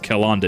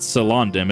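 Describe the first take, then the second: First: The name begins with a hard K sound. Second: The name begins with a soft S sound. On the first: The speaker calls it right. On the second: The speaker calls it wrong. "It's not"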